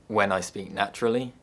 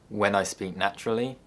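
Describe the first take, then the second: No difference in how they are said.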